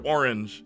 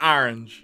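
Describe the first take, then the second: First: Said in the usual way. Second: "Orange" said as "ahr-inj"; Southern pronunciation. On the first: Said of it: "When she says the word orange". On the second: Retold or imitated. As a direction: imitate her "Orange" with an open AH first vowel. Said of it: "it's like, "Orange".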